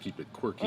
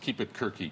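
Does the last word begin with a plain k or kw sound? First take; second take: kw; plain k. First: The last word begins with a kw sound. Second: The last word begins with a plain k sound. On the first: The speaker calls it wrong. "it could be mispronounced Keep It Quirky" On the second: The speaker calls it right. "it's Keep It Kirky"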